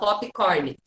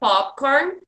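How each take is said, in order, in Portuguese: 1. É dita com sons do português. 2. É dita com sons do inglês. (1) "A gente fala popcorn" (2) "mas a pronúncia é popcorn"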